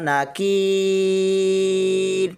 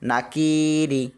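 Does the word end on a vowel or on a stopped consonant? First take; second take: consonant; vowel. First: The word stops on 'r', with a lengthened 'ee'. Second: The word ends with a short 'i' vowel. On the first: "র হরফে রক্ফ করব, যার কারণে কি বলে আমরা তিন আলিফ টানবো" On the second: "রজের রি"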